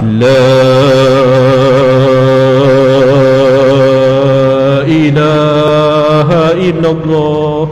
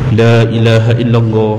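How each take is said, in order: First: The phrase is drawn out very slowly. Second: The phrase is said at a moderate pace. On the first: The dying person cannot keep up with it. The speaker calls it wrong. "Kalau perlahan sangat, orang yang tengah nazak ni dada dia sempit, dia tak boleh nak ikut kita" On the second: The dying person can follow along. The speaker calls it right.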